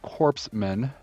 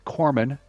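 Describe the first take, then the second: First: The p and s are pronounced: corpse-man. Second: The p and s are silent: core-man. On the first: The speaker calls it wrong. "That's not Corpseman" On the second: The speaker calls it right. "It's Corman"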